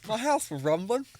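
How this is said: It is said in a put-on foreign accent.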